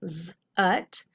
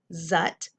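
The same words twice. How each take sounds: First: "z, ut" as a held z, then ut; sounded out. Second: Said in the usual way. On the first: Shown as a demonstration. Teacher decoding a syllable for pupils, sounded out in parts. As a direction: buzz the z alone, pause, then "ut". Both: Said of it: "uh, syllable".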